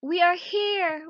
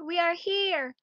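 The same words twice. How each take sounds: First: Loud, high, slow shout; children at the door shouting to their mother. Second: High shout, a little less loud; children at the door still shouting. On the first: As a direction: call out so she hears you through the door. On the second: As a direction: shout it again to be heard. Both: Acted. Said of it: "started to shout all together".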